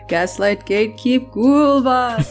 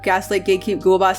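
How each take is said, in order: First: It is said in a spooky voice. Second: It is said in her normal voice.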